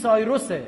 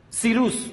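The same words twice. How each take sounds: First: سایروسه with English "sigh" opening; English-style "Sairus" in سایروسه; English form. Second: سیروس with long ee, "See-roos"; "See-roos", set apart on its own; Cyrus as "Sirus". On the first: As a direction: say سایروسه as English "Sai-rus". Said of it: "چرا انگلیس سایروسه". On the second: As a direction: say سیروس as "Sirus", not "Sairus". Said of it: "بین سیروس و کوروش خیلی فاصله است". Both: Shown as a demonstration.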